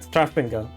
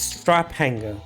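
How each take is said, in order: First: The middle is said with an f sound. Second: The middle is said as separate p and h. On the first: The word is taken for a Greek word. The speaker calls it wrong. "I was reading it like that, Strafenga, because for some reason I was thinking it was Greek" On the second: The word is read as two English words. The speaker calls it right. "no, it's strap hanger"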